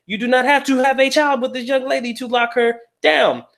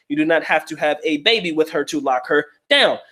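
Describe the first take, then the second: First: Raised, emphatic restatement; emphatic repeat. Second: Said in the usual way. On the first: Real, not acted. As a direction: say it again higher, hammering it home. Repeats point with more emphasis.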